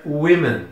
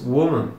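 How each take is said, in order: First: "women" said with an I sound, WI-men; plural pronunciation. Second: "woman" said with a rounded WO in the first syllable; singular pronunciation. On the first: Teacher shows students the plural, WI sound in "women". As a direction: say "women" as WI-men, first vowel changed. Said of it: "no plural nós vamos pronunciar". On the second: Teacher shows students the singular, rounded first syllable in "woman". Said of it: "no singular nós pronunciamos". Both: Shown as a demonstration.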